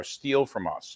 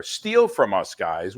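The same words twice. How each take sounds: First: Said in the usual way. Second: Eager call. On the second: Real, not acted. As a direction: pitch it up, inviting them in. Urging audience to copy.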